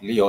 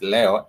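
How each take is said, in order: First: It sounds like the English name Leo. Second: It is said with Swahili vowels, le-o. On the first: The star sign. The speaker calls it wrong. "it's not Leo" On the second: Today. The speaker calls it right. "it's Leo, L E O"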